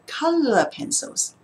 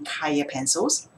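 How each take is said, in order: First: The first word has a clear L sound. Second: The first word has a Y sound, not L. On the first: The speaker calls it right. "I have lots of color pencils" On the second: The speaker calls it wrong. "don't ask me for any Kaya pencils"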